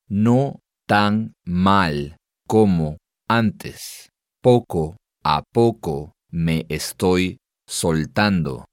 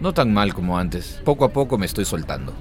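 First: It is said slowly and deliberately. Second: It is said at normal conversational speed.

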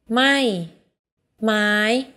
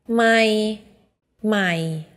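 No difference in how they are said.

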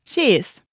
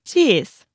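Both takes have the same delivery.

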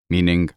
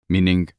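Both takes have the same delivery.

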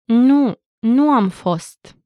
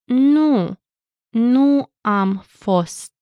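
First: It is said at normal speed. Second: It is said slowly.

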